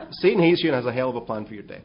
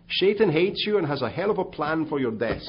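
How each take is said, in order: First: Fast, louder, laughing through it; laughing repeat. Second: Put-on loud, higher, laughing Dutch accent. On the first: Real, not acted. Preacher repeating punchline to congregation, laughing. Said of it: "repeats the punchline". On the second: Pastor delivering punchline to Bill Bright, laughing Dutch accent. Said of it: "in his great Dutch accent".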